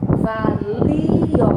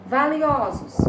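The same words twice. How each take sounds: First: "Valio" drawn out as va, li, o; loud, split "Valio", each vowel held; syllable by syllable. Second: Said in the usual way. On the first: Shown as a demonstration. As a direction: separate the li from the o in "Valio". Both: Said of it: "O li separa do o".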